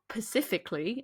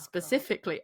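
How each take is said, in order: First: The word begins with a plain 'p' sound. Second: The word begins with an 'sp' sound. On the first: The speaker calls it wrong. "I've also heard people recently say something like" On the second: The speaker calls it right. "instead of"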